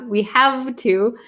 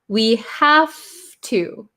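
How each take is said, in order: First: The v in have keeps its v sound. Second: The v in have sounds like an f. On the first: "is a little bit hard to say, but it's possible" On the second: "I think we usually change this sound to an F"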